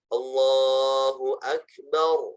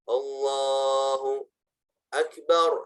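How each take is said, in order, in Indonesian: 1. Kedua kata diucapkan berurutan tanpa jeda. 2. Ada jeda panjang yang memisahkan kedua kata. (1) "harus benar" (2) "tidak boleh lama ... jedanya tidak boleh lama"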